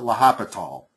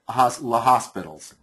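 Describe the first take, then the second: First: The name is said without an S sound. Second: The name is said with an S sound. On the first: This is the speaker's current way of saying it. "I tend to pronounce it L'Hopital" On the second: It follows the spelling. "I used to pronounce it La Hospitals because it's spelled that way"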